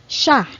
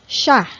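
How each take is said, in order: No difference in how they are said.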